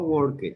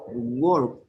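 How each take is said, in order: First: The ending is said as an extra syllable. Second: The ending adds no extra syllable. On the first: The speaker calls it wrong. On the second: The speaker calls it right.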